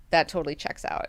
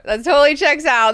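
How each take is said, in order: First: Said in the usual way. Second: Much louder and higher, all in; "That totally checks out" belted out, high and loud; emphatic loud agreement. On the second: Shown as a demonstration. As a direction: shout the agreement with gusto. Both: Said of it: "repeats line, then louder".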